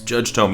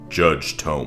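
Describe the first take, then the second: First: It is said in a plain, casual voice. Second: It is said in a commanding, authoritative voice. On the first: The speaker calls it wrong. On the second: The speaker calls it right.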